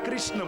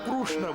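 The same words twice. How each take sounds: First: The first syllable sounds like kri. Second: The first syllable sounds like kru. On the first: "ઘણા કૃષ્ણ બોલે" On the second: "ઘણા કૃષ્ણ બોલે"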